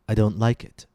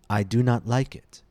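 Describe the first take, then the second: First: The words 'do not' are contracted to 'don't'. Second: The words 'do not' are said in full. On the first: The speaker is being casual and conversational. "Contractions, on the other hand, sound more conversational" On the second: The speaker is being formal or emphatic. "Full forms sound formal and emphatic"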